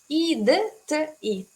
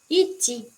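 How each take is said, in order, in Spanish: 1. Las letras d y t se pronuncian por separado. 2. Los sonidos del medio se unen en un ch suave. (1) "tenemos idti" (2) "pero lo leo como ichi"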